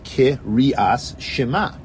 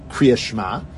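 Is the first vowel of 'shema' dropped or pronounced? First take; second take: pronounced; dropped. First: The first vowel of shema is fully pronounced. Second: The first vowel of shema is dropped. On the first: The speaker calls it right. "you're supposed to say the shva na and pronounce it fully" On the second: The speaker calls it wrong. "you shouldn't say kriya shma as if it's one syllable less"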